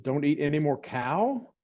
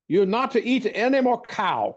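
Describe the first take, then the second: First: Said in the usual way. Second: Higher fond imitation of the old healer; silly voice. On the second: The doctor orders the boy off beef, in a higher silly voice. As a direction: pitch it up and lean on "any". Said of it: "the silly voice I'm doing".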